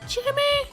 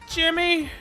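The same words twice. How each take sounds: First: It is said in a high falsetto. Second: It is said in a lower, normal voice.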